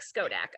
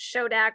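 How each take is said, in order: First: The word begins with an 'sk' sound. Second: The word begins with an 'sh' sound. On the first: The speaker calls it right. "but more like skodak" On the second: The speaker calls it wrong. "it's probably not pronounced shodak"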